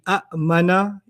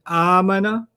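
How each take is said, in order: First: There is a glottal catch in the word. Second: The word flows smoothly without a catch. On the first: "if I did it literally" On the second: "So the Arabs made it smoother"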